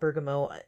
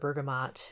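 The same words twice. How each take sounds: First: The final T sound is dropped. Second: The final T sound is pronounced. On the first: "the more French pronunciation would be dropping that consonant" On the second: "It's got a T on the end"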